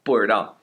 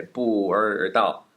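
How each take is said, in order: First: 不知道 said quickly as one word with an r in place of zhi; 不知道 run together fast, bu-r-dao; right quick version. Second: 不知道 said slowly, drawing out the r in place of zhi; 不知道 dragged out slowly as bu-rrr-dao; wrong slow version. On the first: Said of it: "You have to say it relatively quickly". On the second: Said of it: "You can't say 不知道. That doesn't work". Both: Shown as a demonstration.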